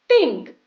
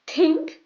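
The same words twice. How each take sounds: First: "think" with an s, falling; sink sound. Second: "Think" with a th, rising; tongue out for the th in "Think". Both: Shown as a demonstration. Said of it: "repeat after me".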